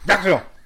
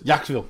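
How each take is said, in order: First: It is yelled loudly. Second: It is said calmly, at normal loudness.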